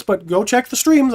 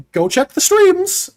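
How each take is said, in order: First: Said in the usual way. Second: High, slow pitchy plug; YouTuber voice. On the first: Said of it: "I don't know why I'm gonna point for this". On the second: Shown as a demonstration. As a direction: sell the streams hard, slow and high. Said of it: "Let's get YouTuber voice going".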